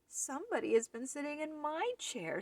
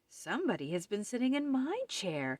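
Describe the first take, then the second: First: It is said in a wee little voice. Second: It is said in a middle-sized voice.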